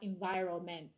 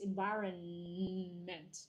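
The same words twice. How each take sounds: First: The n sound before 'ment' is left out. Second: The n sound before 'ment' is clearly pronounced. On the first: The speaker calls it wrong. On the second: The speaker calls it right. "you pronounce the N"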